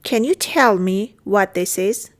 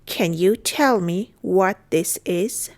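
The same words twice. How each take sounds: First: Said in the usual way. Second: Slow, each word set apart; careful teaching pace; slow model repeat. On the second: Shown as a demonstration. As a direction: take it word by word for learners. Teacher repeats phrase slowly.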